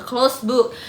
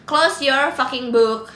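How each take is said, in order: First: Said in the usual way. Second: "Close your fucking book" drawn out slowly, each word loud; emphatic repeat. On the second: Real, not acted. Streamer shutting down talk of an ex, "Close your fucking book" slow and emphatic.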